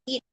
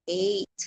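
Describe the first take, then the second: First: The vowel is a long ee sound. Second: The vowel is an ay sound. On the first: The speaker calls it wrong. "Hindi eat" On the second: The speaker calls it right.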